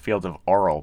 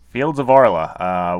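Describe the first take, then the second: First: The name ends on a consonant sound. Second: The name ends with a final vowel sound. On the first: The speaker calls it wrong. "in the past we've called Fields of Arl" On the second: The speaker calls it right. "it's more like Arla in German"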